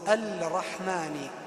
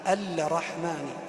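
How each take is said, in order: Both takes have the same delivery.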